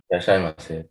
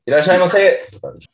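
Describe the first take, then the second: First: It is said very quietly. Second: It is said loudly.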